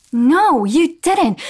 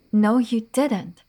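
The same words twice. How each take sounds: First: Shouted, higher, emphatic didn't; loud accusation. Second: Slow, deliberate no, you didn't; slow accusation. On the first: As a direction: call him out loud. Repeating accusation, now shouted. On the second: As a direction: spell out each word as an accusation. Repeating accusation, slower. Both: Acted.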